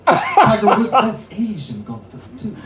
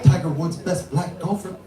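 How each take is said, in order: First: Mock Japanese accent, "Asian" punched and drawn out; slow down and hit "Asian" louder, as dad; dad's accent, stressing Asian. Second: Imitated Japanese father, evenly delivered; dad's Japanese accent. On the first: Comedian quoting dad's correction, louder accented stress on "Asian". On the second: Comedian quoting dad on golf, mock Japanese accent. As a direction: put on dad's Japanese accent, no big punch. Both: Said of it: "my dad was like".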